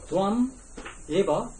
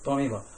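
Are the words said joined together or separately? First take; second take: separate; joined. First: The two words are said separately. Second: The two words are joined into one.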